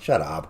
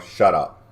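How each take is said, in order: First: It sounds light and friendly, teasing. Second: It sounds harsh and hostile, dismissive. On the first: It is a playful nudge. "I read that as, hey, come on" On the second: It is a rude brush-off. "not you know, shut up, kind of deal"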